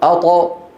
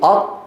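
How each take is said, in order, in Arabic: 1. يُطلَق حرف الطاء الأخير مع صدى خفيف. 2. يُمسَك حرف الطاء الأخير مغلقًا دون إطلاق. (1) "قالوا أط" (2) "إذا أرادوا أن يقولوا أط"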